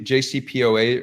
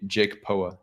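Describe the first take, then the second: First: J C P O A said letter by letter; spelled-out acronym. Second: "jake poa", read as if it were words; acronym as a word. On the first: Host asking how the acronym is pronounced, J C P O A as separate letters. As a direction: say each letter of "J C P O A" by name. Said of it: "is it pronounced G-, J C P O A". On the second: Host testing how the acronym is pronounced, blended into "jake poa". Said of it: "is it pronounced". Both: Shown as a demonstration.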